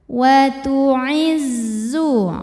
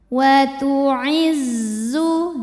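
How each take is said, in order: Both takes have the same delivery.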